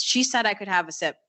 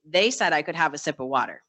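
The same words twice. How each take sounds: First: "She" marked as the slip, pitched up on "She"; mild imitation of a patient's wrong "She"; stress on she. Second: "they" given as the fix, falling on "they"; gentle self-correction landing on "they"; stress on they. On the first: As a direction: land on "She" like the first try. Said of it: "So he goes". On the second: Retold or imitated. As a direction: correct yourself with a clear "they". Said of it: "Excuse me".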